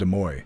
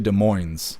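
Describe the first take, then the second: First: The N at the end is left silent. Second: The N at the end is clearly sounded. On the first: This is how the speaker's group had been saying it. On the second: This is how the local people say it.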